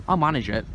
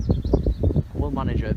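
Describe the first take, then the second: First: Said in the usual way. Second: Slow, firm "will" pressed down; stress on WILL. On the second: Shown as a demonstration. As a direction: lean hard on "will", drag it out.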